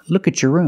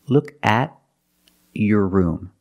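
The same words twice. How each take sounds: First: The words are linked together and said faster. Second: The words are said separately, with breaks.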